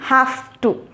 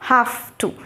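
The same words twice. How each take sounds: First: 'Have' ends with a voiceless F sound. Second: The same.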